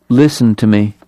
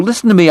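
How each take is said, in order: First: Gentle smiling malice. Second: High, pleading listen to me; frightened plea. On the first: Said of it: "with a gentle, smiling malice". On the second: Eli to Holliday, a high, frightened plea. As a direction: beg him to hear you out. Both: A narrator's reading.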